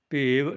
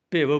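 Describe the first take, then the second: First: ਭੇਵ with a long e; ਭੇਵ said with a full long e; long-vowel ਭੇਵ. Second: ਭਿਵ with a short i; ਭਿਵ with sihari, not a long e; short-vowel ਭਿਵ. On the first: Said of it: "ਭੇਵ ਨਹੀਂ ਬੋਲਣਾ". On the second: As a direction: keep the vowel in ਭਿਵ brief. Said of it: "ਭਿਵ ਬੋਲਣਾ". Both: Shown as a demonstration.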